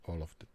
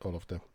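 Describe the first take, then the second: No difference in how they are said.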